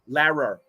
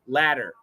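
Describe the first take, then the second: First: The middle consonant sounds like an R. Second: The middle consonant is a quick D-like tap. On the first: The speaker calls it wrong. "If it were an R" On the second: The speaker calls it right. "That's a flap T"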